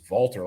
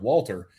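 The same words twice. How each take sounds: First: The name begins with a V sound. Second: The name begins with a W sound. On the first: "like with a V" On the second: "the English way of Walter"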